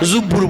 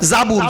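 First: The first vowel is u, with a doubled b. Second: The first vowel is a, with a single b. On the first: This is the village Bengali way of saying it. "অনেকে বলে জুব্বুর, আমরা গ্রাম বাংলার লোক" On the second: This is the name as given in the scripture. "আসলে সূরা আম্বিয়ায় আল্লাহ নাম দিয়েছে জাবুর"

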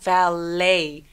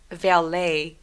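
First: The stress is on the second syllable. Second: The stress is on the first syllable. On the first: The speaker calls it right. "강세 둘 다 뒤에 옵니다" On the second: The speaker calls it wrong. "valet가 아니라"

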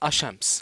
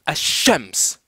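First: The sh sound is short and single. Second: The sh sound is held long and doubled. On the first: The speaker calls it wrong. "Il ne faut pas dire Ashams" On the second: The speaker calls it right. "il faut dire Ashams. / je double ce Shin"

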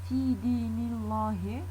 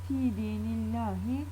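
First: The l sound in Allah is heavy and dark. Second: The l sound in Allah is light and thin. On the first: The speaker calls it wrong. "Zaten kalın okuduğunda yakışmıyor ... Bakın bir öyle de deneyelim isterseniz. Fi dinillahi hoş olmuyor" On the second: The speaker calls it right. "biraz daha düşürüyoruz kalınlık modumuzu ... daha ince tonda söylüyoruz"

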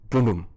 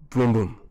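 No difference in how they are said.

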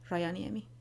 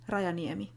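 First: The r is an English r sound. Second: The r is a Finnish r sound.

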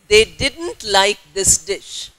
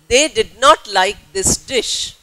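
First: Did not is said as one contracted word. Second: Did not is said as two full words. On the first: It suits informal speech. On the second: It suits formal speech.

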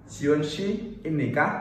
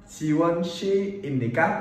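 The two takes are said the same way.

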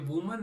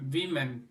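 First: The first vowel sounds like 'oo'. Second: The first vowel sounds like 'i'. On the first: The speaker calls it wrong. "આને વુમન નહીં" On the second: The speaker calls it right. "પણ આને બોલાય છે વિમેન"

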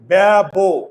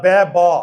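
First: The word ends with an o vowel. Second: The word ends on a bare consonant. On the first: The speaker calls it right. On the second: The speaker calls it wrong.

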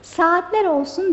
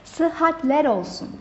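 First: The first word begins with a plain long 'saa' sound. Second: The first word begins with 'sıh' and a doubled h. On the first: The speaker calls it wrong. "hayır elbette saat değil" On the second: The speaker calls it right. "doğru formumuz olan sıhhat kelimesini"

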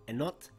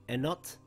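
No difference in how they are said.

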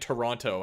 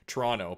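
First: Every syllable of the word is fully pronounced. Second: The word is clipped, with sounds dropped. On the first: "instead of saying Toronto" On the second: "I say Toronto, but that's just everyone from Toronto says that"

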